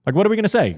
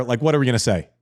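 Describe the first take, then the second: First: Same question pitched much higher with exasperated emphasis; emphatic repeat. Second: Said in the usual way. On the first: Real, not acted. Co-host pressing his point to listeners, repeats it up high. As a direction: throw the repeat up high, incredulous.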